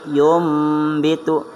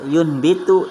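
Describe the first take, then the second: First: The nasal before the b sounds like m. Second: The nasal before the b sounds like n. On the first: The speaker calls it right. "tapi yumbitu" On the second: The speaker calls it wrong. "bukan bahasanya yunbitu"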